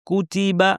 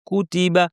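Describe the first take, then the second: The two takes are said the same way.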